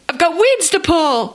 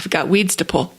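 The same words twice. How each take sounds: First: It is said in a happy, cheerful tone. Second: It is said in a glum, unhappy tone. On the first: Pulling weeds means good things are coming. The speaker calls it right. "It goes like this" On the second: Pulling weeds is a chore. The speaker calls it wrong. "He was totally saying wrong"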